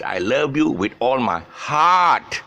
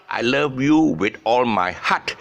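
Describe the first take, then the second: First: Heart stretched long and slow; long vowel in heart. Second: Heart said with a short, clipped vowel; the wrong, short-vowel heart. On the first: Teacher modelling the correct heart slowly. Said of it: "Heart is a long sound". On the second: Teacher showing the learners' common mistake. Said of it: "it's not". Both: Shown as a demonstration.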